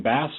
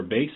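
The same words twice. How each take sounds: First: "Bass" with the short a of the fish. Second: "Bass" with a long a, rhyming with case. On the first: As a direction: say "Bass" to rhyme with pass. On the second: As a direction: say "Bass" like the word base. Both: Shown as a demonstration. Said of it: "is your last name Bass or Bass".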